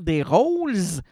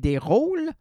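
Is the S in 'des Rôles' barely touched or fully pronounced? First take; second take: fully pronounced; barely touched. First: The S sound is pronounced fully. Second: The S sound is only lightly touched. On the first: The speaker calls it wrong. "tu dois pas dire des Rôles" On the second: The speaker calls it right. "tu effleures uniquement le S"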